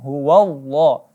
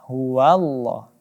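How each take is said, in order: First: The wa sound is heavy and dark. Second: The wa sound is light and thin. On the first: The speaker calls it wrong. "bukan huwallah" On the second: The speaker calls it right. "huruf wa di sini tipis"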